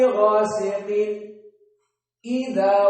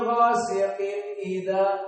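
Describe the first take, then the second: First: A very brief stop comes before the second word. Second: The two words run together without any break. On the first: "Berhenti meskipun hanya sepersepuluh detik" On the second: "Itu tersambung"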